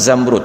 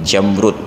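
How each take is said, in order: First: The word begins with a 'z' sound. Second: The word begins with a 'j' sound. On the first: The speaker calls it right. "padahal kan zamrud" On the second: The speaker calls it wrong. "Indonesia adalah negeri jamrud"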